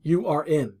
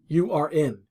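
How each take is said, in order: First: Each word is said separately and in full. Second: Each word is said separately and in full.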